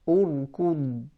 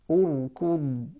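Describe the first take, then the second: The two takes are said the same way.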